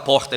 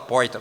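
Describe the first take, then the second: First: The r is pronounced in a standard way. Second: The r has a country-style curled sound. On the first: "ele não vai falar porta" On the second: "alguém do interior de São Paulo"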